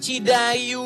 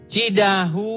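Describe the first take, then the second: First: The middle consonant is a y sound. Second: The middle consonant is an h sound. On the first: The speaker calls it wrong. "kamu bilang Cidayu" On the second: The speaker calls it right.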